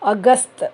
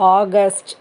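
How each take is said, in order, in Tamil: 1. மாதம் இந்தி முறையில் சொல்லப்படுகிறது. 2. மாதம் ஆங்கில முறையில் சொல்லப்படுகிறது. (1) "ஹிந்தியில் எப்படி சொல்கிறதுனா" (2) "இங்கிலீஷில் நம்ம ஆகஸ்ட்னு சொல்கிறோம்"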